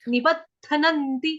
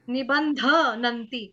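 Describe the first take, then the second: First: A d-like sound follows the b, no nasal. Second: A nasal n sound follows the b. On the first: The speaker calls it right. "ब के बाद दरवाजे वाला द आएगा ... इस तरह से" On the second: The speaker calls it wrong. "आपके मुंह से क्या निकल रहा है? निबंध।"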